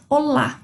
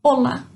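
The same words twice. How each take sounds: First: Portuguese "olá", stressed on the last syllable; stress on final A. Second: Spanish "olá", stressed on the first syllable. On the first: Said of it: "o nosso acento fica lá no A". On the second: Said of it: "a sílaba mais forte é no O". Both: Shown as a demonstration.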